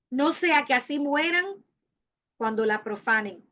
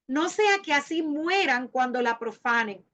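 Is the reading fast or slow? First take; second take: slow; fast. First: It is read at a noticeably slower pace. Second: It is read at a normal, quicker pace.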